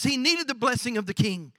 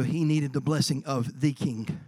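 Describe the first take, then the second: First: Said in the usual way. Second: Slow and low, with THE set apart; slow down and lean on "the" before "king"; weighty stress on THE. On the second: Real, not acted. Preacher turning to the greater King, slow weight on THE. Second take, meaning the heavenly King.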